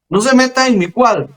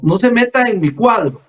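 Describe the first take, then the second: First: It is spoken a little more loudly. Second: It is spoken softly and gently. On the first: "un poquito más fuerte" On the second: "hablando suavecito"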